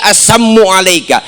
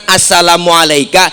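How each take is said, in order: First: "assammu alaika" with doubled m, no la; "assammu" clipped to sam-mu, the insult greeting; assammu said as sammu. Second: Said in the usual way. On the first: Shown as a demonstration. Preacher shows the mocking greeting: "assammu alaika" with doubled m. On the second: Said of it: "Kalau kita kan".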